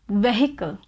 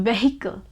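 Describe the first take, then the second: The two takes are said the same way.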